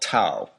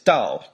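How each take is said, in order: First: The word begins with a t sound. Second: The word begins with a d sound. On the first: "spelling Dao as Tao, T A O" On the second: "Dao, D A O"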